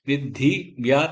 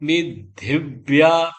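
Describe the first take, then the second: First: The word is split with a break inside. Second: The syllables run together without a break. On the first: The speaker calls it wrong. "தனி இல்ல" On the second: The speaker calls it right. "சேர்த்து சொல்லணும்"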